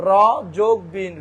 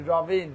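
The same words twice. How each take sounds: First: "রবিন" broken as র, plus বিন; "রবিন" in two separate pieces; split into syllables. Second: Said in the usual way. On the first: Shown as a demonstration. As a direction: say each half of "রবিন" apart. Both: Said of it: "এরকম যদি আমি ভাঙি".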